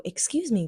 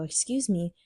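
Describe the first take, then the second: First: "Excuse me" called out higher and louder. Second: Said in the usual way. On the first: Retold or imitated. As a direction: raise your voice so she knows it's her. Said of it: "maybe she thinks I'm not talking to her". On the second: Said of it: "And I go up to her and I go".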